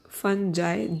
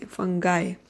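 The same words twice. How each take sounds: First: The g is said like a j sound. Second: The g is said like a hard g sound. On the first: "j say" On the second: "g say"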